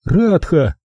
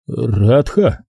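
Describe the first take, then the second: First: Name given high with a fall; high, falling РАДХА as an answer; curt captive woman. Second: РАДХА repeated with rising tune; РАДХА at ordinary pitch, lifting at the end; questioning echo. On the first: She gives her name. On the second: Narrator echoes name as question. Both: A narrator's reading.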